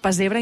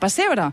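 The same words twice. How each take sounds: First: The middle s is voiced, like a z. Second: The middle s is voiceless, like an s. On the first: "estic parlant tota l'estona de pessebre" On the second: "i no de pessebre"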